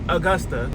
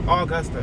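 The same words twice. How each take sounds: First: The word does not start like August. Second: The word starts like the month August. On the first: The speaker calls it right. "But apparently it's Augusta" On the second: The speaker calls it wrong. "that's how I say it"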